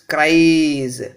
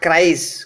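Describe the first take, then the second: First: The plural ending is a voiced z sound. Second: The plural ending is a voiceless s sound. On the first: The speaker calls it right. "this is a voiced sound" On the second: The speaker calls it wrong. "not cries"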